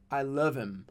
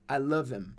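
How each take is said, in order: No difference in how they are said.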